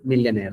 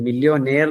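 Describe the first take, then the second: First: The second syllable has a reduced 'ya' vowel. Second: The second syllable has a full 'yo' vowel. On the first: It is how the word is actually spoken. "യഥാർത്ഥത്തിൽ അതിന്റെ pronunciation വരുന്നത് മില്യനെയർ എന്നാണ്" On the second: It follows the written spelling. "നമ്മൾ ഉച്ചരിച്ചുകൊണ്ട് പറയുകയാണെങ്കിൽ മില്യോനെയർ എന്നുള്ള രീതിയിലാണ് നമ്മൾ എഴുതുക"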